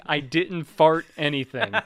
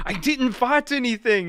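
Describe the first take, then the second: First: Slow, louder mock French accent; thick French accent. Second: High, loud, bad French accent; thick French accent. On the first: French kid who kept denying it, thick French accent. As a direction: draw out the denial in a put-on French accent. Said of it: "in a thick French accent". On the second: French kid denying the blame, thick French accent. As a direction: imitate an indignant kid in a botched French accent. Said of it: "thick French accent".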